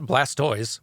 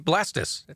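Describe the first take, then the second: First: The name ends with a 'toys' sound. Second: The name ends with a short 'tus' sound. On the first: This is how everyone actually says it. "not Blastoise" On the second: This follows the pronunciation of tortoise. "if we're going by the rules of language and pronunciation, would be Blastus"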